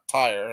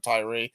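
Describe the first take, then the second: First: It is said as one syllable, like 'tire'. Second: It is said as two syllables, like 'Tyree'. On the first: The speaker calls it right. "I heard some scholars saying tire" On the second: The speaker calls it wrong. "for a long time I used to say Tyree"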